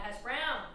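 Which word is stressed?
browns. The stress is on browns.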